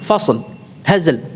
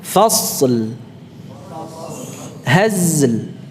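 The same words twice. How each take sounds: First: The endings are clipped short without lingering. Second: The endings linger on the middle consonant briefly. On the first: The speaker calls it wrong. "jadi tidak langsung ... tidak" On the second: The speaker calls it right. "Ini ada temponya"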